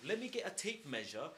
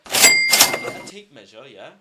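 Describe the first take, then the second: First: Said in the usual way. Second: Sudden shouted mock demand in a put-on voice; mock outburst. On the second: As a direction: bark it out in a big parody voice. Blasting out a mocking demand.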